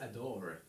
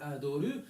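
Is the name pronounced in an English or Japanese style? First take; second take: English; Japanese. First: It is said English-style, ending on the 'r' sound. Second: It is said Japanese-style, with a final 'u' vowel. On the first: "comme l'album des Smashing Pumpkins" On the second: "à la manière japonaise"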